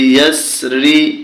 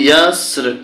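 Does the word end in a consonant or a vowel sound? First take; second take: vowel; consonant. First: The word ends with a final -ri vowel. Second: The word ends cut off on the consonant.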